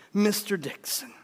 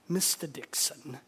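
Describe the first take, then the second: First: Said in the usual way. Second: Mister Dixon in a lower, softer put-on accent. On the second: Missionary answering the man who warned him, put-on accent. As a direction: say the name again in an improvised foreign accent. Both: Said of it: "he probably said it with an accent".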